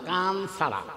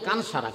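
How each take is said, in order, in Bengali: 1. দ্বিতীয় শব্দটি 'ch' ধ্বনি দিয়ে শুরু হয়। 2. দ্বিতীয় শব্দটি 's' ধ্বনি দিয়ে শুরু হয়। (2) "অনেকে কয় কান সারা, কান সারা না"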